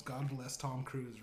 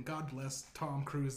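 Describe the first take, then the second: First: Put-on a light, slow Biden accent, a bit softer. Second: Said in the usual way. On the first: Biden answers the room in a mild Biden accent. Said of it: "responds in the Biden accent".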